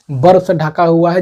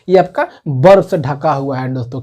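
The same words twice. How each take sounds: First: Slower, leaning on बर्फ; teacher drilling the answer word by word; slow emphatic repeat. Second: Said in the usual way. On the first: Shown as a demonstration. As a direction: say "बर्फ से ढका हुआ है" slowly for the class, with weight on बर्फ. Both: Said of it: "क्या है?".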